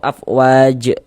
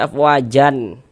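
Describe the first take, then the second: First: The word ends abruptly on the j consonant. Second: The word ends with an added n sound. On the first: "atau afwaj juga jangan" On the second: "Jangan dibaca afwajan"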